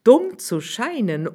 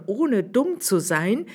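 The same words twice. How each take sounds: First: "Dumm" stressed high with a falling tune; higher swineherd stressing "Dumm", falling. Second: "dumm" stressed with a rising tune; higher swineherd stressing "dumm", rising. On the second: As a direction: lift "dumm" upward, rising. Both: Acted.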